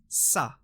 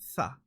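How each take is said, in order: First: It begins with a hissing s sound. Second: It begins with the tongue between the teeth. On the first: The speaker calls it wrong. "You cannot pronounce this letter as Sa. That's wrong" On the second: The speaker calls it right. "You have to dampen the S sound a bit. So it's pronounced as Tha"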